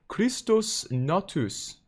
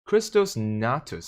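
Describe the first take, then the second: First: Overdone, high-pitched German accent sliding into Norwegian; botched German accent. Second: Said in the usual way. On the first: Shown as a demonstration. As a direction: have a go at a German accent, too sing-song Nordic. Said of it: "that's a little too Norwegian".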